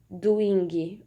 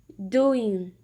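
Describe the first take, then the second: First: A hard G sound is heard at the end. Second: The word ends without any G sound. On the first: The speaker calls it wrong. "ou doing" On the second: The speaker calls it right. "a gente vai suprimir esse som"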